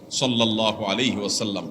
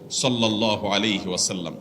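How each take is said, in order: The two takes are said the same way.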